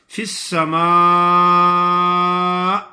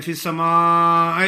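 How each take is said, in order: First: فی السماء long madd, clean stop on hamza, louder; correct madd. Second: فی السماء with an extra jolt "ay" at the end; wrong jerk demo. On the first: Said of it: "حمزہ ایسا ہی پڑھا جائے". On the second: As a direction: imitate the mistaken jerk on the last syllable of السماء. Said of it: "کچھ لوگ ایسے بھی پڑھتے ہیں". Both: Shown as a demonstration.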